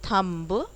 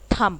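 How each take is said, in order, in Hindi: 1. अंतिम 'b' ध्वनि उच्चारित होती है। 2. अंतिम 'b' ध्वनि मूक होती है। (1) "इट्स नॉट थम्ब, थम्ब नहीं बोलते हैं" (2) "थम बोलते हैं"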